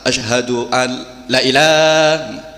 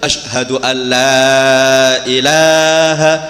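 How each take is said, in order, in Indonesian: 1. Vokal dalam 'la' dipendekkan. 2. Vokal dalam 'la' dipanjangkan. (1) "Ini yang salah" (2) "Yang betul"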